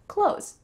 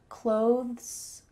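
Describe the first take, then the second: First: It is said quickly with no th sound. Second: It is said slowly with a slight th sound. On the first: "There's not even a hint of a T H when we say it quickly" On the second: "when native speakers are talking slowly, you might hear clothes with a slight T H"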